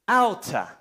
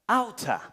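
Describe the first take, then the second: First: The two words blend into one word. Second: The two words blend into one word.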